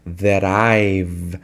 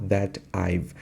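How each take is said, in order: First: Low "That I've" blended into one word; linked words. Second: "that I've" as two separate words, T kept; slow "that I've" with a gap after "that"; unlinked words. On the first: Teacher correcting to the joined form, "That I've" linked. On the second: Teacher showing what not to say, "that I've" unlinked. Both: Shown as a demonstration. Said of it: "Não that I've".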